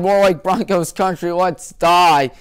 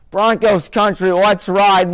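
First: Sarcastic twist on the slogan; deadpan the grim version of the slogan; mocking the team with a dark pun. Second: Lightly mocking the team's rallying cry; mock slogan. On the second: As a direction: announce it like a proud ad tagline.

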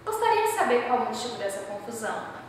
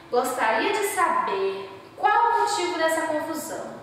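First: Said in the usual way. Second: "Gostaria de saber qual o motivo dessa confusão" said evenly with a plain falling end, no question rise; polite indirect question. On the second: Shown as a demonstration. Teacher shows the class an indirect question with calm, level intonation. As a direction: ask politely, in no hurry for the answer. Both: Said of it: "se eu chego aqui pra vocês e falo".

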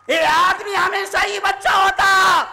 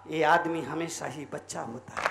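First: High preacher's shout; forceful, raised-voice wish; loud proclamation. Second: Very low, soft voice; hushed, low-pitched wish; quiet musing. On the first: Loud repeat of the line. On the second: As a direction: drop low and muse softly. Soft first take, then shouted repeat. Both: Shown as a demonstration.

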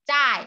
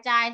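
First: "จ้าย" with a falling Mandarin fourth tone. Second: Said in the usual way. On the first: Shown as a demonstration. Teacher spells it out for students, "จ้าย" falling in fourth tone. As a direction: drop the pitch through "จ้าย". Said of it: "เสียงสี่เป็น". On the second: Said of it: "เสียงสี่เป็นจ้าย".

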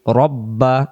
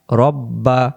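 Both takes have the same delivery.

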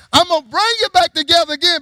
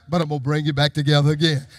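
First: High, loud preaching shout; proclaimed promise. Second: Low, fast aside in preaching; low quoted promise. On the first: Same prophecy preached out loud. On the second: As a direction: drop low and say it quickly. Quoted prophecy, then repeated loudly. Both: Acted.

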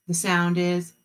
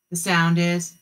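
No difference in how they are said.

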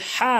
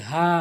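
First: হা short and forceful; wrong pronunciation. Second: হা eased from the bottom of the throat; correct pronunciation. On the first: Teacher showing learners the mistake, short wrong হা. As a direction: say হা abruptly. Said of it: "ভুল উচ্চারণ". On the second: Teacher modelling for learners, correct light হা. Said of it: "সঠিক উচ্চারণ হচ্ছে". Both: Shown as a demonstration.

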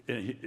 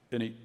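Both takes have the same delivery.

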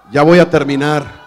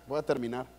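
First: Loud announcement. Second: Said in the usual way. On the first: Shown as a demonstration. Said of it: "ustedes gritan desesperados". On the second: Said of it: "Esta es la parte donde ustedes gritan".

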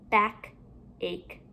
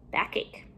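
First: BACK, a pause, then ACHE softer; two separate parts. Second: Said in the usual way. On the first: Shown as a demonstration. Teacher building compound words for pupils, halves kept apart. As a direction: leave a gap between BACK and ACHE.

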